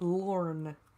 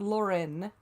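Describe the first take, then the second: First: The name is said with one syllable. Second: The name is said with two syllables. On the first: The speaker calls it right. "but Lorne" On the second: The speaker calls it wrong. "not Lauren"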